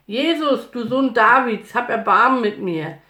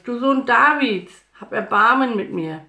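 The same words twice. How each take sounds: First: High, loud insistent cry; full-voiced begging call; even louder shout. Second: Loud, raised cry for mercy; high and loud, begging; pleading shout. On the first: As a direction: shout the plea with more force, refusing to be hushed. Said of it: "schrie nur noch lauter". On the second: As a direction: shout the plea over a noisy crowd. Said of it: "schrie Bartimäus". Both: A narrator's reading.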